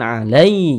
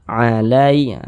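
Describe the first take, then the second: First: The word is said with heavy, pressed force. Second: The word is said softly and lightly. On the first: The speaker calls it wrong. "jangan ditekan alai" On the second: The speaker calls it right. "Alai lunak"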